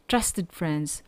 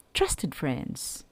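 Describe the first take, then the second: No difference in how they are said.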